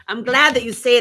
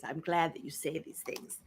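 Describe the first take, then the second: First: Same words, now higher and louder. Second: Soft, breathless whisper. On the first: Answering the fan again, now loud and high. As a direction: say it out, bright and loud. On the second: Thanking a fan in a soft whisper. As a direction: whisper it close and softly. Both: Shown as a demonstration.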